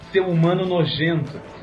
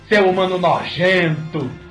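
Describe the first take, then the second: First: It is said in a plain, neutral accent. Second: It is said in a strong northeastern accent. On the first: "a frase dele era" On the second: "o ator virou e falou da seguinte maneira"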